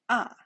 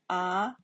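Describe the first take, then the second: First: The pitch falls sharply from high. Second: The pitch rises from middle to high. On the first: "The fourth time" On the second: "Second one"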